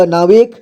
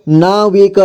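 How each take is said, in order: First: Said in the usual way. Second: नाविक as ना-वि-क; syllable by syllable. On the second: Shown as a demonstration. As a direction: sound out नाविक in three parts. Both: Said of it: "एक ही बार में पढ़ेंगे".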